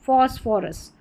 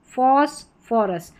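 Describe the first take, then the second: First: Said in the usual way. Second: phosphorus drawn out slowly, each syllable clear; slow repeat. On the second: Shown as a demonstration. Teacher repeating the word slowly for students to copy. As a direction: stretch phosphorus out so learners catch the फ. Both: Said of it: "pH के बाद आर नहीं है तो फ".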